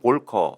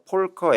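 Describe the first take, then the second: First: The name begins with a V sound. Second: The name begins with an F sound. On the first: This is the English way of saying it. "영어로는 볼커 이렇게" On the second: This is the German way of saying it. "F 발음해 버리잖아요"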